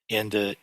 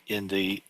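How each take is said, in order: No difference in how they are said.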